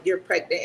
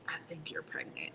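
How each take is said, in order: First: Said in the usual way. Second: Hushed secret whisper. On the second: Retold or imitated. Telling the captain privately, in a whisper.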